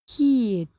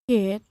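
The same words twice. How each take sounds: First: The vowel changes to a different quality. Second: The vowel keeps its short-i quality. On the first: The speaker calls it wrong. "make sure that it doesn't sound like kid" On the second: The speaker calls it right. "When you say kid"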